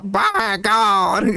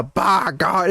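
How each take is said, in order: First: BY GOD pitched higher in a mimicked commentator cry; up a couple registers. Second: Said in the usual way. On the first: Shown as a demonstration. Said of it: "up a couple registers". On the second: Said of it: "it's not the".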